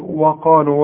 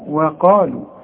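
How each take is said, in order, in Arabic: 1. صوت w في البداية مفخم ومليء. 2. صوت w في البداية مرقق وخفيف. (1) "وده خطأ" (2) "الواو دائما في القرآن مرقق"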